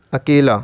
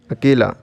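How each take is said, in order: Both takes have the same delivery.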